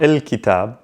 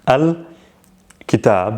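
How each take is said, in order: First: The article is said with an i vowel. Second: The article is said with an a vowel. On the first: It is the everyday spoken form. "il, very, very common in spoken Arabic" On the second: It is the formal standard form. "In Fusha, modern standard Arabic, you tend to hear a lot of al"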